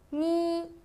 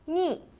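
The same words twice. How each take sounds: First: The pitch stays high and level. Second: The pitch falls sharply from high to low.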